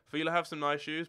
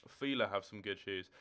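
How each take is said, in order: First: "have" hit higher and louder, rising at the end; emphatic correction. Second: Said in the usual way. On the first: Shown as a demonstration. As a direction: lift "have" hard and louder, ending up.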